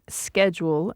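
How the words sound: It is said with an American pronunciation. "in the U S is pronounced schedule"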